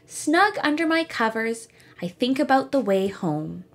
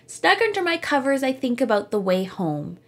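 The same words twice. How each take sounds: First: There is a pause after covers. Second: It runs on with no pause after covers. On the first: The speaker calls it right. "as if I pause" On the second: The speaker calls it wrong. "Without it"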